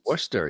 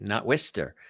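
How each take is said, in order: First: It is said short, as two syllables. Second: It is said as spelled, three syllables. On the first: The speaker calls it right. "that's how you say it" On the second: The speaker calls it wrong.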